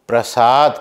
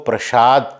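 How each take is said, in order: First: The middle consonant is a plain s. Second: The middle consonant is sh. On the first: The speaker calls it right. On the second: The speaker calls it wrong.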